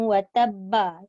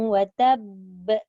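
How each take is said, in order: First: The last word ends with a vowel sound. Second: The last word ends on a stopped consonant. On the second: "dia disukunkan jugalah bila dia waqaf"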